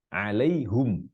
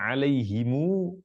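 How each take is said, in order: First: The word ends in hum with a u vowel. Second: The word ends in a lengthened mu after him. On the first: "Qiraat yang lain baca alaihum" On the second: "mu didomahkan mimnya dan baca panjang"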